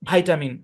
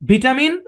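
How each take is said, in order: First: It is said with an American pronunciation. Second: It is said with a British pronunciation. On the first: "ডান পাশে আমরা আমেরিকানটাকে রাখছি" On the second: "বাম পাশে আমরা ব্রিটিশটাকে রাখছি"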